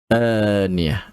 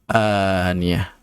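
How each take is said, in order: Both takes have the same delivery.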